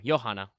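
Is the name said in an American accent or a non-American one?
non-American. The name is said without an American accent.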